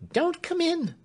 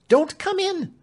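First: Much higher, fearful servant voice, stress on Don't; frightened warning. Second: Much higher and louder, stress on come; frantic warning. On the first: Clemency pushes Alfred back from the door, frightened. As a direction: warn him off in panic, leaning on Don't. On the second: Clemency repeats her warning to Alfred, louder and frantic. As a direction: plead desperately, punching come. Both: A narrator's reading. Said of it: "she answered".

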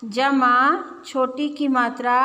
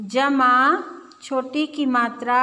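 The two takes are said the same way.

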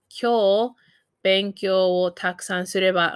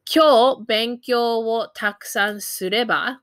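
First: Careful teaching repeat; broken into chunks. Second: Said in the usual way. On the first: Shown as a demonstration. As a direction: pause after "Kyou", then "benkyou wo takusan sureba". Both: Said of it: "I might say".

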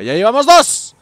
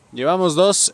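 First: Loud, high and triumphant; excited loud cheer; triumphant shout. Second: Said in the usual way. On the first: Real, not acted. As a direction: crow about the second kill. Celebrates a kill.

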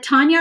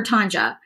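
First: Tanya said with a y glide; name with y sound. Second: Tanja said with an English J; name with J sound. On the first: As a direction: say "Tanya" with a y sound before the final a. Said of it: "I'm sorry if I mispronounce names". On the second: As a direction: say "Tanja" with j as in "jam". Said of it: "It looks like a J to me". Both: Shown as a demonstration.

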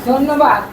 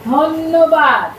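First: To someone hard of hearing. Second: ধন্যবাদ stretched slow and loud. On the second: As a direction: drag out ধন্যবাদ loudly, syllable by syllable. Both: Shown as a demonstration. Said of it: "কি বললাম বলো তো?".

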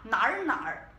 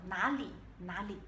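First: "nar, nar" with a clipped final r and no -li ending; wrong pronunciation. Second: "nali, nali" with the full -li ending, both syllables clear; correct pronunciation. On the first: Teacher demonstrating the incorrect "nar, nar" to students. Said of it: "Você não pode falar". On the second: Teacher modelling the correct humble "nali, nali" for students. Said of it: "tem que usar essa palavra". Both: Shown as a demonstration.

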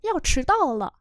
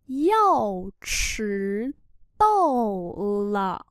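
First: Said in the usual way. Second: Syllables stretched with pauses; slow model reading. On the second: Shown as a demonstration. Teacher modelling "about to be late" for learners, slowly. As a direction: draw out each syllable and its tone.

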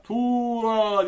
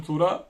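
First: Higher, long drawn-out "Tuğra"; mock calling out. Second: Said in the usual way. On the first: Shown as a demonstration. Teacher pretending to call a pupil named Tuğra, mock yell. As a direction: call the name as if across a distance. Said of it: "diye bağırıyorsun". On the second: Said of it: "Tuğra diyelim".

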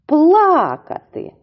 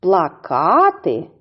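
First: "плакати" slowly, with high, loud пла-; stress on first syllable. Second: "Плакати" slowly, stressed on -ка-; stress on second syllable. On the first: Teacher reviewing the pair, high stressed first syllable. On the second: Teacher reviewing the pair, slow stressed second syllable. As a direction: say "Плакати" as pla-KAA-ty. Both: Shown as a demonstration. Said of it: "іще раз повторюємо".

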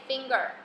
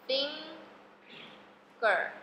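First: Said in the usual way. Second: FINGER split in two, long FING, pause, then GER; syllable by syllable. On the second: Shown as a demonstration. (把finger拆成两个音节慢慢读) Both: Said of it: "F I N一个，G E R一个".

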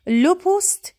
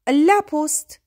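First: "لو" said higher and louder; stress on LE. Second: "لا" said louder and clearly; stress on LA. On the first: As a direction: hit the article "لو" hard. (تأکید روی «لو» با صدای بلندتر) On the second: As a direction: punch the article "لا". (تأکید روی «لا» با صدای بلند) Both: Shown as a demonstration. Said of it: "اما لا پست".

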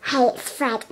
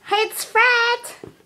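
First: Said in the usual way. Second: High squeaky balloon voice; helium voice. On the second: Real, not acted. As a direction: talk after sucking helium. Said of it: "my voice sounds so weird".

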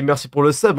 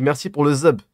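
First: Said in the usual way. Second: « zub » dit avec un z au lieu du s; lisp. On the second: Shown as a demonstration. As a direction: zozoter sur « sub », ça sort « zub ». (« zub » zézayé, z à la place du s) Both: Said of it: "je suis un petit con qui se zozote".

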